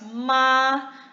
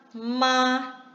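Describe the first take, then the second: The two takes are said the same way.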